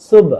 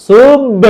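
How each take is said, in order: First: সুব short, with a light bounce on the final b; normal light qalqalah. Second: সুব loud, drawn out, with a heavy bounce on b; overdone qalqalah. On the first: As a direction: keep the echo on the b of সুব small. (সুব-এর শেষে হালকা ধাক্কা) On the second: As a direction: slam the b of সুব into a big echo. (সুব-এর শেষে অতিরিক্ত জোরে ধাক্কা) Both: Shown as a demonstration. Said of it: "এরকম না".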